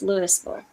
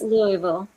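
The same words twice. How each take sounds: First: The s in the name is sounded. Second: The s in the name is silent. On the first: This is how it is said in Colorado. "and in Colorado, it's Louisville" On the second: This is how it is said in Kentucky. "In in Kentucky, it's Louisville"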